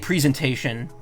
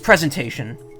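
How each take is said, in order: First: The first syllable sounds like 'pree'. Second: The first syllable sounds like 'prez'. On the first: "people say presentation, but that's I don't think that's right because it's not pre anything" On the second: "it's presentation"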